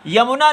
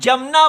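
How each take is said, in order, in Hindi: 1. यह शब्द y ध्वनि से शुरू होता है। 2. यह शब्द j ध्वनि से शुरू होता है। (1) "यमुना नहीं बोल पाते" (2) "अधिकतर लोग इसको ज बोल देते हैं, जमुना बोलते हैं"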